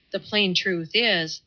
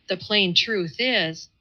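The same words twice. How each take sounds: First: Slow, halting start; faltering. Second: Slow, halting retry; faltering. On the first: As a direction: hesitate over the words. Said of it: "he boggled and blundered". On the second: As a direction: blunder through it again, slow. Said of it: "he said at last". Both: A narrator's reading.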